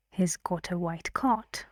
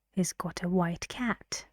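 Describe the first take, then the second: First: "cot" with an open back o vowel; minimal-pair demo. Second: "cat" with an open front a vowel; minimal-pair demo. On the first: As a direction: model sentence, "cot" rhyming with "hot". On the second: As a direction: model sentence, "cat" rhyming with "hat". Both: Shown as a demonstration. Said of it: "I read the sentence for you".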